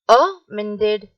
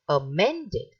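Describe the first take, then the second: First: The stress is not on the middle syllable. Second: The stress is on the middle syllable. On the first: The speaker calls it wrong. "it is wrong" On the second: The speaker calls it right. "We are stressing the men"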